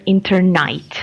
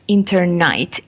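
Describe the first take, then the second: First: The last syllable is said as 'night'. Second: The same.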